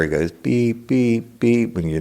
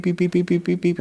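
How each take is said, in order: First: Evenly spaced imitated beeps, slightly raised; normal beeps. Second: Rapid beeps pitched far higher; alarm beeps. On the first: Explaining a normal thermometer, steady imitated beeps. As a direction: copy a calm thermometer beep. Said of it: "those digital thermometers". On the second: Retold or imitated. Fever thermometer going off, rapid high beeping. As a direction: fire off frantic beeps like an alarm. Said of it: "When this one got done".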